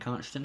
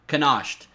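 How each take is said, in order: First: The name sounds like 'Constant', two syllables. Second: The name sounds like 'Canoshed', three syllables. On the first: The speaker calls it right. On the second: The speaker calls it wrong.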